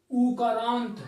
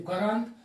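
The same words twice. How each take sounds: First: उकारांत with the first vowel stretched to a long oo; forceful long vowel. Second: Said in the usual way. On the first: Shown as a demonstration. Teacher explaining the big oo to students, उकारांत with a long stressed first vowel. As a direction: lean hard on the opening vowel of उकारांत. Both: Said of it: "थोड़ा जोर से बोलना पड़ता है".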